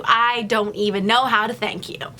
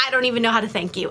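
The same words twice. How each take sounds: First: Measured, with weight on KNOW; deliberate, emphatic gratitude; emphatic thanks. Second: Very fast, run-together words; hurried, overwhelmed gratitude; rushed thanks. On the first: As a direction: lean on "know", giving each word room. Repeats thanks, slower and emphatic. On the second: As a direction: blurt out the thanks in a rush. Repeats thanks, first rushed. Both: Real, not acted.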